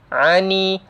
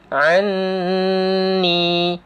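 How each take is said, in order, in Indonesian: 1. Huruf n tunggal tanpa sengau yang ditahan. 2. Huruf n yang ganda disengaukan dan ditahan panjang. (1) "Dah lah hilang terus sabdunya" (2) "Jadi dua harkat dengung"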